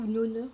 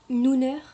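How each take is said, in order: First: "Noner" with an o in the first syllable; alternative pronunciation. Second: "Nooner" with a long oo in the first syllable; tentative pronunciation. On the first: (autre prononciation, « Noner » avec un son « o ») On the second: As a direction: try out "Nooner" loudly, first syllable like "noo". (essai de prononciation, « Nooner » avec un son « ou ») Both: Shown as a demonstration. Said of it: "comment ça se présente, prononce".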